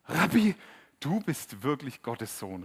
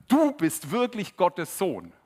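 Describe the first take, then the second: First: Awed exclamation. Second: Slow, loud and higher, every word weighed; awed exclamation. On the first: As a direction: cry out in amazement, drawing it out. Nathanael bekennt Jesus staunend. (laut und staunend, Nathanael erkennt Jesus) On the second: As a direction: proclaim it in wonder. Der Skeptiker bekennt Jesus. (langsam, laut und ehrfürchtig, Nathanael bekennt seinen Glauben) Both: Retold or imitated.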